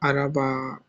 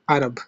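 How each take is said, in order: First: The word ends with an added vowel 'a'. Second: The word ends on the consonant 'b'. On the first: The speaker calls it wrong. "It doesn't sound Araba" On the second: The speaker calls it right. "It just stop there"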